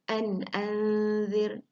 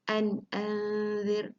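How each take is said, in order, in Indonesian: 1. Bunyi n tegas dan berhenti dengan jelas. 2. Bunyi n tegas dan berhenti dengan jelas.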